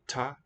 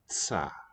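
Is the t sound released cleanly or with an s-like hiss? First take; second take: clean; hissy. First: The t is released quickly and cleanly. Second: The t is released slowly with an s-like hiss. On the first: "If you release it quickly" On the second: "and if a little more slowly, transitional S"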